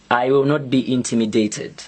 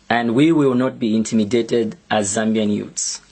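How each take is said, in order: First: Will not be intimidated with the weight on will; stress on will. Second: We stressed, set against I. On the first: To the minister, refusing to be scared, stress on "will". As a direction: lean on "will", firm and steady. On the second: Speaking for Zambian youths, stress on "we". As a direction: lean on "we" for the whole youth. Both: Real, not acted. Defiant repeat, stress shifts.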